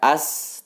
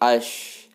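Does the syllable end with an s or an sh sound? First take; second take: s; sh. First: The syllable ends with an s sound. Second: The syllable ends with an sh sound. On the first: The speaker calls it wrong. "Bukan dibaca as" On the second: The speaker calls it right. "tetapi ash"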